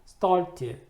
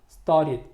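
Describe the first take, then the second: First: The middle t sound is clearly pronounced. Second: The middle t sound is hidden or dropped.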